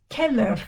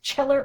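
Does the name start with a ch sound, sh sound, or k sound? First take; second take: k sound; ch sound. First: The name begins with a k sound. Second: The name begins with a ch sound. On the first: The speaker calls it right. "C H in Italian is K like K" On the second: The speaker calls it wrong. "that's not pronounced Cheller"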